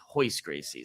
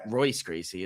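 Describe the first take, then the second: First: The first name starts with an H sound. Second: The first name starts with an English R sound. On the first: The speaker calls it right. "It's Hoist Gracie" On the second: The speaker calls it wrong. "It's not"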